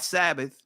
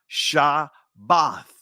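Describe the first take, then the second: First: The word begins with an s sound. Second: The word begins with a sh sound. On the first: The speaker calls it wrong. "Sabbath is a Greek pronunciation of it" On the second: The speaker calls it right. "you see the Shah, Shabbath"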